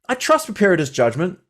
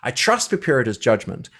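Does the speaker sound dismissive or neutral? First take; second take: dismissive; neutral. First: It is read in a dismissive, condescending tone. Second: It is read in a plain, neutral tone. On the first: The speaker calls it right. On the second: The speaker calls it wrong.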